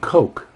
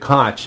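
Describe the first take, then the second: First: The name is said like the drink Coke. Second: The name is not said like the drink. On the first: "pronounce it Coke" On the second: "a name like Koch"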